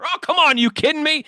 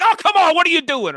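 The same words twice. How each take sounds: First: High exasperated outburst; blurting at the TV. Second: Blurting at the TV. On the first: Fan yelling at the TV over a bad call, exasperated and high. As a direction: throw the complaint at the screen. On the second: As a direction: yell at the screen in disbelief. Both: Retold or imitated. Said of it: "blurt out at the T V".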